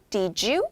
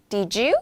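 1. 두 단어가 이어져 하나의 음절처럼 발음돼요. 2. 두 단어가 이어져 하나의 음절처럼 발음돼요.

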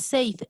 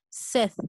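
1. La vocal es un sonido 'ay' largo. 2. La vocal es un sonido 'eh' corto. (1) "A veces pensamos que se pronuncia así como safe, pero no es safe" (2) "solamente es Seth"

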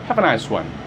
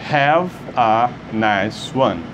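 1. A frase é dita em um ritmo mais rápido. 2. A frase é dita em um ritmo mais lento.

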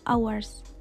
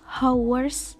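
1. Bunyi h senyap. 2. Bunyi h terdengar. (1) "Padahal yang benarnya itu adalah hours" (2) "Kebanyakan orang membacanya itu hours"

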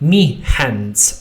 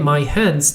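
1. Zaimek wymawia się jak 'me'. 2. Zaimek wymawia się jak 'my'. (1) "tylko powiemy me hands" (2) "nie my hands"

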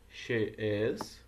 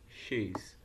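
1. É falado como duas palavras completas e separadas. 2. É falado como uma sílaba curta e contraída. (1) "Você pode falar she is" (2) "ou somente she's"

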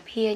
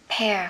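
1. Nguyên âm nghe giống 'ear'. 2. Nguyên âm nghe giống 'air'. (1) "không đọc là peer nhé" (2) "thì mình sẽ đọc là pear"

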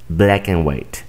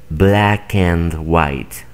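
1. La palabra 'and' se reduce a un sonido 'n'. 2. La palabra 'and' se pronuncia completa, con su vocal. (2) "No dicen"

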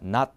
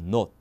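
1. 모음이 열린 'ah'에 더 가깝게 들려요. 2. 모음이 둥근 'oh'에 더 가깝게 들려요. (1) "이게 미국 영어예요" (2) "영국은 not이에요"

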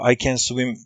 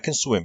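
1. can kelimesi tam ve net söylenir. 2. can kelimesi zayıf bir schwa sesine indirgenir. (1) "bize öğretildiği şekilde telaffuz ettiğim zaman" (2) "can weak sound olarak sesletilmesi lazım"

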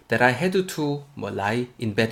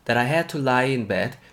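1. 단어 사이를 쉬면서 끊어서 말합니다. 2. 한 덩어리로 이어서 말합니다. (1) "이렇게 잘라서 가지 마시고요" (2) "이렇게 붙여서 오세요"

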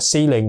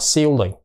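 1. Có một nguyên âm yếu, nhẹ đứng trước chữ L. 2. Có một âm nguyên âm mạnh đứng trước chữ L. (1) "người Anh thì không có đọc chữ ồ đó mạnh" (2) "chứ không đọc là ceiling"

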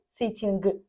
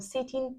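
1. Слово закінчується на чутний звук g. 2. Слово закінчується на звук n, g немає. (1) "G, sitting, listening, так неправильно говорити" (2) "У вас слово буде закінчувати на літері N"

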